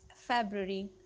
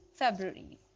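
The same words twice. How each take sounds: The two takes are said the same way.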